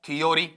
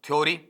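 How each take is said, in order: First: Three syllables with 'yo' in the middle. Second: The first syllable is a glided 'thyo'. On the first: "या फिर हम ऐसा पढ़ देते हैं" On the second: "नहीं सर हम तो ये पढ़ते हैं"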